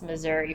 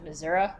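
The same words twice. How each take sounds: First: The word is said with the general American pronunciation. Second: The word is said with a local Missourian pronunciation. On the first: The speaker is not from Missouri. "it's Missouri for everyone else" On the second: The speaker is from Missouri. "if you have a um like a Missourian accent, you might pronounce it"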